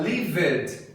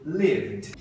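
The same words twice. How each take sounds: First: LIVED as two syllables, liv-ED; wrong "lived" with a vowel before the d; mispronounced extra syllable. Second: LIVED as one syllable, "livd"; slow "lived" ending on vd; "lived" with silent e; correct pronunciation. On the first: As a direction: sound out the -ed in "lived". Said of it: "não tá certo". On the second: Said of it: "vai ser". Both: Shown as a demonstration.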